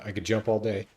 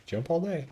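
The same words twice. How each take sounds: First: Said in the usual way. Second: Much higher, teasing sing-song. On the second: Retold or imitated. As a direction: sing it up high to tease. Boasting about endless jumping.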